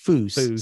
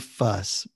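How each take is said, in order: First: The vowel is a long 'oo' sound. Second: The vowel is a short 'uh' sound. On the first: The speaker calls it right. "but Foos sounds much cooler" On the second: The speaker calls it wrong. "Some people say fuss"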